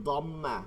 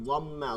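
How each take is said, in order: Both takes have the same delivery.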